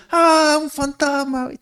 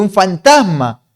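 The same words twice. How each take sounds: First: High, drawn-out mock scream of fright; grito de miedo imitado. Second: Loud, raised cry of alarm while reading aloud; exclamación de miedo. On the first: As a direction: act out terrified disciples with a long, high-pitched wail. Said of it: "los discípulos gritando". (grito agudo y alargado, fingiendo susto) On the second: Acted. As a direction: read it out as a startled, louder exclamation. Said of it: "dieron muchas voces de miedo". (exclamación asustada, más fuerte y aguda)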